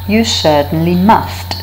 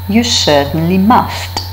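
The two takes are said the same way.

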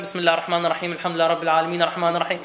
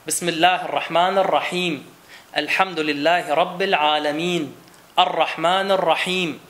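First: The phrases are run together without pauses. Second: Each phrase is separated by a pause. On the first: The speaker calls it wrong. "es ist nicht gut zu sagen" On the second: The speaker calls it right. "Wenn ich nicht verbinde, dann mache ich Stopp"

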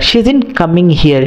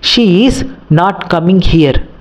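First: 'She is not' is run together as 'sheezin'. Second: Each word of 'she is not' is said separately. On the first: The speaker calls it right. "నేను షీజింట్ అని అంటే" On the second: The speaker calls it wrong. "నాకు pronunciation అనేది కొంచెం కష్టంగా ఉంది"

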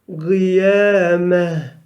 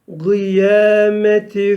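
First: The word ends with a soft h sound. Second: The word ends with a t and vowel. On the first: The reader stops after this word. "durduğumuz zaman nasıl okuyacağız bu yuvarlak teyi? Evet, he olarak" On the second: The reading continues into the next word. "Eğer geçer isek"

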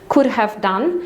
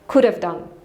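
First: The word 'have' is pronounced in full. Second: The word 'have' is shortened to a weak sound. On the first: "kiedy mówimy could have done" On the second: "skracamy to do tego"

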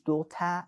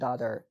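First: It is said in a British accent. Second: It is said in an American accent. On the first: "بریتیش" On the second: "امریکن"

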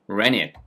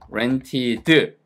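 First: It is said quickly with the t sound dropped. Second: It is said slowly with the t sound pronounced. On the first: "얘 발음을 빨리 하면" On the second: "R 발음 살려드릴게요"

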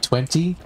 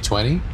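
First: The middle T sound is clearly pronounced. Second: The middle T sound is dropped. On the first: This is the careful, proper way to say it. "I guess properly would be 20" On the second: This is the lazy, everyday way to say it. "all of us are lazy and just say 20"

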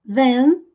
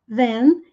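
The two takes are said the same way.

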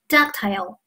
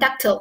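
First: It is said with a British pronunciation. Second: It is said with an American pronunciation. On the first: "一个英音" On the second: "美音"

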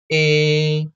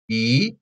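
First: The pitch stays high and level. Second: The pitch rises from middle to high. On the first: "This is the first tone" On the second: "Second tone like this"

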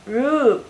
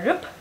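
First: The vowel is a long rounded u. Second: The vowel is a short u. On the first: The speaker calls it right. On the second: The speaker calls it wrong.

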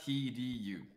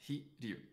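First: The name is said with three syllables. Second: The name is said with two syllables. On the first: The speaker calls it wrong. "And not Hiryu. That's three syllables" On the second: The speaker calls it right. "If it's Japanese, it's Hiryu. ... it's two"

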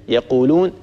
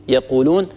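The two takes are said the same way.

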